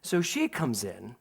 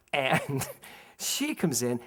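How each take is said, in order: First: Said in the usual way. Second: "she comes in" drawn out slowly with a pause before it; slow it down for suspense; dramatic slow repeat. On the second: Shown as a demonstration. Repeating to the listeners slowly for suspense.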